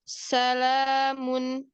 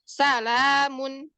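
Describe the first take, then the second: First: The letters come out softly and smoothly. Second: The letters are jerked out forcefully. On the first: The speaker calls it right. "setiap hurufnya itu keluar dengan lembutnya" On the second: The speaker calls it wrong. "bukan salamun"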